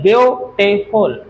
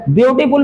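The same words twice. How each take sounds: First: ब्यूटीफुल slowly split, ब्यू-टी-फुल; syllable by syllable. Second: Said in the usual way. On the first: Shown as a demonstration. Teacher demonstrates syllables to the class, ब्यूटीफुल broken into three parts. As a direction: sound out ब्यूटीफुल in three slow, separate beats. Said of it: "ऐसे बोला जाता है इसको". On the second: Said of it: "कोई बोलता नहीं है".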